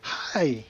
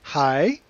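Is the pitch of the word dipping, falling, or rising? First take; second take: falling; rising. First: The pitch falls through the word. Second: The pitch rises through the word. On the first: "you've got a dropping tone" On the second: "You've got a rising tone"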